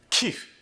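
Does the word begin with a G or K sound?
K. The word begins with an airy K sound.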